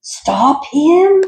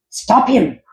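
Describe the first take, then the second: First: Even higher, shrieking, louder repeat; frantic shout. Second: High, loud urgent shout. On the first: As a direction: scream it in full panic. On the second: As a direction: yell the order at the henchmen. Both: Acted. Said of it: "Doctor Franken shouted".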